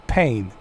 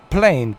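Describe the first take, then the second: First: "Pain" with no L after the P; mock the slip, "Pain" without an L; slipped pronunciation. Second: "Plane" with a clear L after the P; stressed "Plane", L fully pronounced; corrected pronunciation. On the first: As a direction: drop the L, saying "Pain". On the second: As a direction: sound the L in "Plane". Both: Shown as a demonstration.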